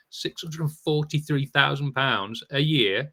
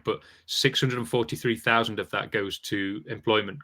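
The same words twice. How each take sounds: First: "Six hundred and forty-three thousand pounds a year" spelled out slowly, rising on "year"; slow emphatic repeat. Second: Said in the usual way. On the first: Real, not acted.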